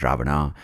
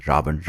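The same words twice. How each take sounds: First: Ravana with an added final "ah"; southern pronunciation. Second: Ravan ending on the n; northern pronunciation. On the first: Comic giving the southern name, Ravana ending in ah. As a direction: end Ravana on an open ah. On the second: Comic giving the northern name, Ravan without final ah. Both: Shown as a demonstration. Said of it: "giving you a north and south pronunciation".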